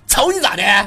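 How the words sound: It is said in a rough, provoking manner. The speaker calls it right. "得这样，得这样。你得剔着牙签那种。"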